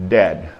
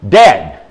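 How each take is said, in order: First: Said in the usual way. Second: "Dead" hit hard and loud; emphatic repeat. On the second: Real, not acted. Preacher warning congregation of overdose, "Dead" hammered loud. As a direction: punch "Dead" with force, pitch falling.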